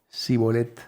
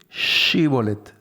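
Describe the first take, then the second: First: The word begins with a plain s sound. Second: The word begins with a sh sound. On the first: The speaker is from the tribe of Ephraim. The speaker calls it wrong. "no podían pronunciar la sh" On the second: The speaker is not from the tribe of Ephraim. The speaker calls it right. "Tenían que decir Shibolet"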